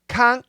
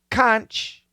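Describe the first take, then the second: First: The word ends with a hard k sound. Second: The word ends with a ch sound. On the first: "with a K pronunciation" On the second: "The plural of conch is conches"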